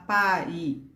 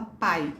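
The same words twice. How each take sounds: First: The vowels are split into two syllables. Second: The vowels glide together in one syllable. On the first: The speaker calls it wrong. "A gente não fala pai" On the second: The speaker calls it right. "a gente fala pai. Então, produz um som só"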